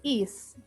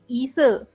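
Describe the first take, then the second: First: The syllable ends on a bare s sound. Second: An extra vowel follows the s sound. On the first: This is the original syllable of the name. "bukan is" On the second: This is how Koreans read the syllable. "bagi orang Korea pembacaannya adalah menjadi ise"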